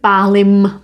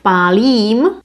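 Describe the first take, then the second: First: The final vowel is short. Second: The final vowel is held long. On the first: This is colloquial speech. "this colloquial version" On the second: This is the standard form. "Instead of pálím"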